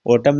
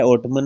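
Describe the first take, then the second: First: "ऑटम" ending on M; silent N. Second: "ऑटमन" ending in an extra "man" syllable; N wrongly sounded. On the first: Teacher showing how autumn is said, silent N in "ऑटम". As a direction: stop "ऑटम" at the M, no N after it. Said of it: "ऑटमन नहीं लिखते". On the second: Teacher showing what not to say, N sounded in "ऑटमन". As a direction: voice the silent final N in "ऑटमन". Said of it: "नहीं लिखते". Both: Shown as a demonstration.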